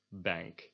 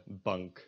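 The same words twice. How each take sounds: First: "bank" with the English front A; English pronunciation. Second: "bank" with a Dutch vowel, close to "bunk"; Dutch pronunciation. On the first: Teacher giving the English word, English bank. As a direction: say "bank" as in English, vowel of "cat". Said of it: "an English word". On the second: Teacher giving the Dutch word, Dutch bank. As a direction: say "bank" in Dutch, back short A. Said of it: "like the Dutch word". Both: Shown as a demonstration.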